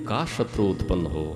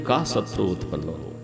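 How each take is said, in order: The two takes are said the same way.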